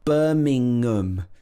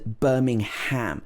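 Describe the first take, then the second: First: The last syllable is a weak, reduced 'um'. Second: The last syllable is a full, stressed 'ham'. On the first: The speaker calls it right. "Birmingham does not have ham in it. It has um in it" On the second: The speaker calls it wrong. "this is not pronounced Birmingham ... the ham is stressed and it's pronounced as ham"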